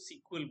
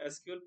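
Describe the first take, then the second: First: It is said as one two-syllable word. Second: It is spelled out as three separate letters. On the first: The speaker calls it right. "इसको सीक्वल बोलते हैं" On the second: The speaker calls it wrong. "इसको एसक्यूएल pronounce नहीं करते"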